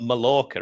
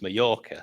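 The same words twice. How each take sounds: First: The double L is said as an English L. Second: The double L is said the Spanish way. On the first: The speaker calls it wrong. "it's not Mallorca, is it?" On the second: The speaker calls it right. "It's Mallorca"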